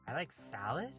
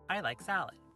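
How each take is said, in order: First: It is said as a question, rising. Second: It is said as a statement, falling.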